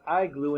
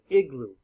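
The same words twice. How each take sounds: First: The first vowel is a long I sound. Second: The first vowel is a short I sound. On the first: The speaker calls it wrong. "Not an igloo" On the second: The speaker calls it right. "an igloo"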